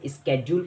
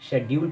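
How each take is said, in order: First: The word begins with an sk sound. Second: The word begins with an sh sound. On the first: This is the American English form. "American English में इसे स्केड्यूल पढ़ा जाता है" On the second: This is the British English form. "British English में इसको शेड्यूल पढ़ा जाता है"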